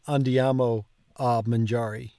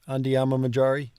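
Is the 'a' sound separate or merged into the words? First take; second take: separate; merged. First: A separate 'a' sound is said between words. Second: The words run together with no separate 'a'. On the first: "going to an effort to put the ah in" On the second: "running it all together"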